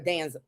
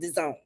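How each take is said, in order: First: The name sounds like 'Danza'. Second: The name sounds like 'the zone'. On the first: The speaker calls it wrong. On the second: The speaker calls it right.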